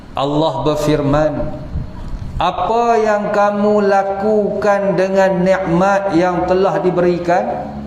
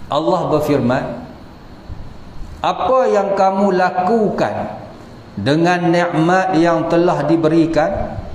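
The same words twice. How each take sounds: The two takes are said the same way.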